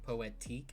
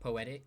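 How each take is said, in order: First: The word ends with a long 'teek' sound. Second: The word ends with a short 'tick' sound. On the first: The speaker calls it right. "it's poetique" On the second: The speaker calls it wrong. "It's not poetic"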